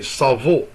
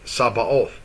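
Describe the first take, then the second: First: The middle consonant is a V sound. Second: The middle consonant is a B sound. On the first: The speaker calls it right. "the sound of V" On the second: The speaker calls it wrong. "oh, it's a B, so that's the way you're gonna say it"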